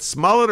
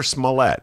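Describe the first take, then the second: First: "Smollett" with the stress on the first syllable; first pronunciation. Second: "Smollett" with the stress on the second syllable; alternative pronunciation. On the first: Host asks which way the name goes, "Smollett" stressed up front. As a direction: say "Smollett" as SMALL-it. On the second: Host asks which way the name goes, "Smollett" stressed at the end. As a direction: say "Smollett" as smuh-LET. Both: Shown as a demonstration. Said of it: "I've been mispronouncing it half the time".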